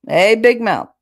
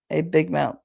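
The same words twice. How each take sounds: First: Loud mocking shout of a nickname; uncle calling out. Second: Said in the usual way. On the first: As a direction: yell it across the room like a teasing uncle. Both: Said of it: "He used to love to call me that".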